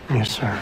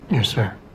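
First: It sounds half-hearted and unconvincing. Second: It sounds sincere and committed.

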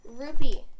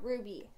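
First: The middle consonant is a p sound. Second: The middle consonant is a b sound. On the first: The speaker calls it right. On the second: The speaker calls it wrong. "Not ruby"

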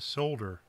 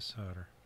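First: The L sound is pronounced, British style. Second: The L sound is silent, American style.

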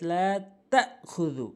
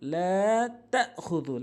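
No difference in how they are said.

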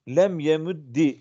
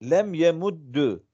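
First: The last word ends with an i vowel. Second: The last word ends with a u vowel. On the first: A silent letter given a vowel takes i. "kesra ile hareketlendirilir kaidesine istinaden" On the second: The vowel follows the verb's middle letter. "Aynel fiiline tabi olarak yemuddu okudum"

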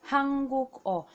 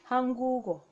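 First: A k sound closes the second syllable. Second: A g sound carries into the last syllable. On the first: The speaker calls it wrong. "naturally you want to pronounce it Hanguk-o. That's not the right pronunciation" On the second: The speaker calls it right. "the pronunciation will be Hangugo"

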